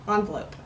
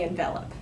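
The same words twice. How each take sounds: First: "envelope" with a long O in the last syllable; noun pronunciation. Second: "envelop" stressed on VEL, short ending; verb pronunciation. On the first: Vlogger giving the noun, "envelope" ending in "lope". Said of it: "if it's, like, the verb". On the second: Vlogger contrasting the verb, "envelop" with short last syllable. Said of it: "the verb without the E on it". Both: Shown as a demonstration.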